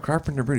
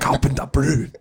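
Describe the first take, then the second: First: The name is said with an American accent. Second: The name is said with a French accent. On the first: The speaker calls it wrong. "that's not how you say it" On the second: The speaker calls it right. "say it like with a French accent"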